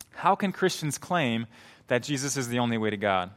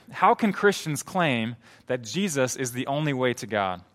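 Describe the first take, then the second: No difference in how they are said.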